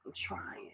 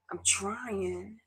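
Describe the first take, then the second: First: A sigh then a breathy, barely-there whisper. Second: Pitched up, pleading and fragile; strained plea. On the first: To her viewers, giving up on words, sighing whisper. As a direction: let it collapse into a whisper. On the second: Telling viewers she keeps trying, strained plea. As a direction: push it out like a plea. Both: Real, not acted. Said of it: "I'm trying not to cry".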